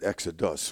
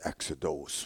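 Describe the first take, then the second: First: The last syllable is said with a 'u' vowel. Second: The last syllable is said with an 'o' vowel. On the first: "We pronounce it exodus with a U" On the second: "In Greek, it was exodos"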